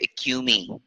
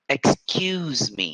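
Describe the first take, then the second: First: The S sound in 'ex' is left out. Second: The S sound in 'ex' is clearly said. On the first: The speaker calls it wrong. "Most of my Vietnamese students will say" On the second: The speaker calls it right. "Make sure that you say ex, ex, excuse. Don't forget the S"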